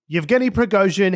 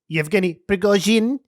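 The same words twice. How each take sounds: First: The name is said with plain English sounds. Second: The name is said with some Russian sounds. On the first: A generalist reporter is speaking. "standard A B C reporter" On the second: The speaker seems to be a regional specialist. "maybe this person's a specialist"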